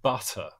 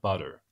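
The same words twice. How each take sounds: First: The middle consonant is a crisp, aspirated T. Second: The middle consonant is a soft, D-like tap. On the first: "if I say the word butter" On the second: "American English, you tend to replace it with a D, like butter"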